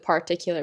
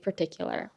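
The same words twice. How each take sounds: First: The first syllable is a full, spelled-out 'par'. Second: The first syllable is reduced and weak. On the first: The speaker calls it wrong. "It's P A R, but we don't we don't pronounce it particular" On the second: The speaker calls it right. "We say particular"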